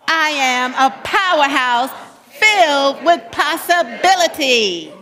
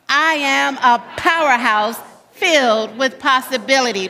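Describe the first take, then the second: First: It is said with more energy and liveliness. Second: It is said with ordinary, less energetic delivery.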